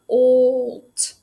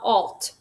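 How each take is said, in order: First: The vowel is a long O sound. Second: The vowel is a short ah sound. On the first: The speaker calls it right. "this is making that O sound" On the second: The speaker calls it wrong. "not alt"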